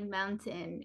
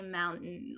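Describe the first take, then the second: First: It is said with a Guam accent. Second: It is said with an American accent.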